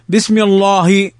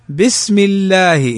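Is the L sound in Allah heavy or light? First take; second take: heavy; light. First: The L in Allah is heavy and dark. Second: The L in Allah is light and thin. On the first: The speaker calls it wrong. "ما تقول بسم الله" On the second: The speaker calls it right. "هنا ترقيق"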